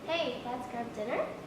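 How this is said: The pitch rises at the end, like a question.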